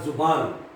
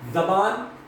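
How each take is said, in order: First: The first vowel is a 'u' sound. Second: The first vowel is an 'a' sound. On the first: "इस ज़े के ऊपर पेश है" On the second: "ये ज़ेर ज़े के ऊपर ज़बर है"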